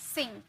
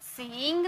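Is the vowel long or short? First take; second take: short; long. First: The vowel is short and quick. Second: The vowel is drawn out long. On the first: The speaker calls it right. "तुरंत में pronounce किए" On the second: The speaker calls it wrong. "सिंग नहीं"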